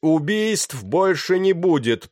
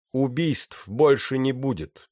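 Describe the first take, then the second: First: Slow, high, loud call; shouted announcement. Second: Slow, raised voice, short of a shout; repeated announcement. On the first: Pirate to the panicking deck, shouting through cupped hands. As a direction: call it out across a crowd. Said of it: "прокричал он, сложив руки рупором". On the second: Pirate to the quieting deck, repeating in a raised voice. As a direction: restate it firmly, pitch lifted. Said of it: "повторил он". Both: A narrator's reading.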